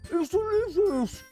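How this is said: It is said as if with a full mouth.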